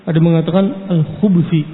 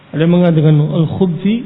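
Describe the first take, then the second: The two takes are said the same way.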